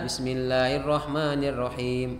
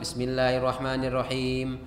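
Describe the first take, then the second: First: The phrase is recited at a slow, unhurried pace. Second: The phrase is recited at a somewhat fast pace.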